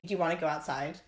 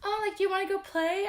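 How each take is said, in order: First: Said in the usual way. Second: Put-on much higher, sing-song voice for kids; chirpy baby talk aimed at a child. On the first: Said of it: "keep the same even tone". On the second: Shown as a demonstration. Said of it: "I never go like".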